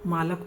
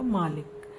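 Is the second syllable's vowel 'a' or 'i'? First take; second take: a; i. First: The second syllable has the vowel 'a'. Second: The second syllable has the vowel 'i'. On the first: The speaker calls it wrong. "मालक तो हुआ नहीं" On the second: The speaker calls it right. "ये हुआ मालिक"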